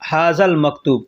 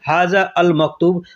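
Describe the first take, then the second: First: The article is run into the first word. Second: The article is said as a separate word.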